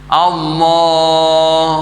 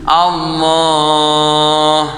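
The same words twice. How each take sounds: No difference in how they are said.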